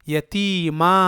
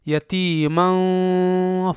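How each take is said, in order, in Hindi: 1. यह बिना नासिका के लंबे स्वर पर खत्म होता है। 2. यह नासिका ध्वनि पर खत्म होता है और अगले शब्द से मिल जाता है। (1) "वक्फ की सूरत में तनवीन गिर जाएगी और तनवीन के बदले इस अलिफ को पढ़ा जाएगा" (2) "इसे फा आवा के साथ मिलाकर एक साथ पढ़ा जाएगा"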